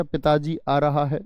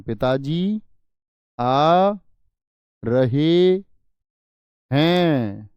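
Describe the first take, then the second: First: Said in the usual way. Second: पिताजी आ रहे हैं spaced word by word, रहे हैं louder; teacher spells out पिताजी आ रहे हैं slowly, each word loud and apart; slow, stressed plural. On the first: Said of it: "नहीं जी". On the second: Shown as a demonstration. Teacher to class, showing respectful plural, slow and stressed. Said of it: "पिताजी के लिए बहुवचन".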